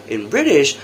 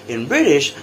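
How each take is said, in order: The two takes are said the same way.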